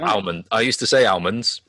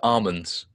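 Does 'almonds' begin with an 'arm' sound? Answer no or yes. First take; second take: no; yes. First: The first syllable does not sound like 'arm'. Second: The first syllable sounds like 'arm'. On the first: "I used to say almonds" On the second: "I recently changed to almonds"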